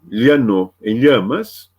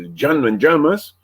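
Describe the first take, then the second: First: It is said in a neutral Spanish accent. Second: It is said with an Argentine accent.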